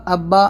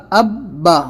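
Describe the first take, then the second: First: Said in the usual way. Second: "اب با" with both b sounds held hard; firm tashdid. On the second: Shown as a demonstration. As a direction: stop firmly on the b, then release "اب با". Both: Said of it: "normal نہیں ہوگا".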